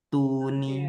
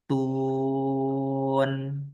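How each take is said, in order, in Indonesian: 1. Kata ini berakhir dengan bunyi vokal pendek. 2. Kata ini berakhir dengan konsonan, vokalnya hilang. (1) "tuni kan tunya matobinya" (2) "karena ninya itu jadi mati"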